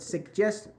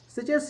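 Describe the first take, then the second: First: The word is said the American way. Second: The word is said the general international way. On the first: "suggest is used in American English" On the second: "Suggest is just generally internationally"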